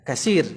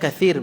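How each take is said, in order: First: The middle consonant is a plain 's' sound. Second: The middle consonant is a soft 'th' sound. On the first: It is an everyday dialect form. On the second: It is the standard form.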